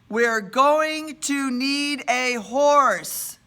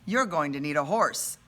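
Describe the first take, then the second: First: It is said louder and slowly, word by word. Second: It is said at normal loudness and pace.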